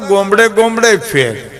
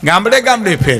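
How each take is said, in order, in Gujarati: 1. પહેલો સ્વર 'o' અવાજ છે. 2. પહેલો સ્વર 'aa' અવાજ છે.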